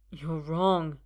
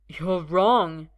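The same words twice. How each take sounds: First: Shaky first "You're wrong". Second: Firmer and louder; louder second "You're wrong"; slightly louder. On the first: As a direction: barely dare to say it. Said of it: "Arthur says shakily". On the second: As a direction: say it again with more force. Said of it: "slightly louder". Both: A narrator's reading.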